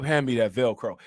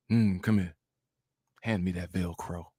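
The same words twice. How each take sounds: First: Deep, lower mock Princella, pushed out louder than the whisper. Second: Low, soft and deep, a mock seductive woman; deep Princella voice. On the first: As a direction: say the Velcro line again, deep but turned up. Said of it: "you gotta turn the microphone all up". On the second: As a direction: drop deep and quiet, hamming up Princella's foreplay voice. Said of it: "It's all deep too".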